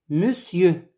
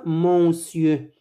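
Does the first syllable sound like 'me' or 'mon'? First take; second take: me; mon. First: The first syllable sounds like 'me'. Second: The first syllable sounds like nasal 'mon'. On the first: The speaker calls it right. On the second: The speaker calls it wrong. "On ne dit pas monsieur"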